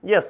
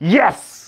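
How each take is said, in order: First: It is said plainly, without emotional force. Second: It is said with excited, emotional force. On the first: The speaker simply confirms having eaten. "Yes আমি খাইছি, ওই yes না" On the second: The speaker is thrilled about a result. "এই যে একটা যে আবেগ নিয়ে আছে"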